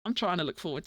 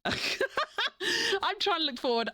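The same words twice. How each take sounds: First: Said in the usual way. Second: Slow, high, laughing. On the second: Real, not acted. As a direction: say it through a laugh.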